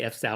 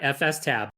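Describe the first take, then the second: First: It is said as F then the syllable stab. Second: It is said as letters F, S, then tab. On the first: The speaker calls it wrong. "I say F stab all the time. I say there's so many things that I say wrong" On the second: The speaker calls it right. "you're right"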